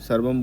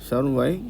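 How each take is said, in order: First: It ends in a clear m consonant. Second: It ends in a nasalized ya sound. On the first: The speaker calls it wrong. "सर्वम बोल देते हैं, वो ठीक नहीं है" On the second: The speaker calls it right. "छोटा या और nasal sound के साथ बोलना होता है"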